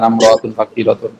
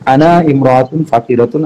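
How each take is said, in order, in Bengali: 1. শব্দ দুটো দ্রুত একসাথে মিশে anamratun হয়ে যায়। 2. শব্দ দুটো আলাদাভাবে বলা হয়, একসাথে মিশিয়ে বলা হয় না। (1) "দ্রুত বলতে গেলে" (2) "ভাঙ্গে ভেঙে পড়াচ্ছি যেটা আপনাদের বোঝার সুবিধা"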